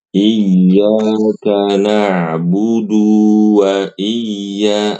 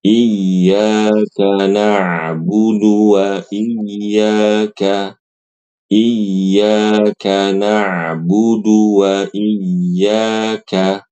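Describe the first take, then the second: First: "na'budu" with the du vowel dragged long; the mistaken drawn "na'budu"; wrong reading. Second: "na'budu" with a short clean du; careful tajwid reading, short "na'budu"; correct recitation. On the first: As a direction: hold the u of "na'budu" too long. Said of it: "ini keliru". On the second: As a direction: recite "iyyaka na'budu wa iyyaka" slowly with no stretched vowels. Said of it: "Yang benar". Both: Shown as a demonstration.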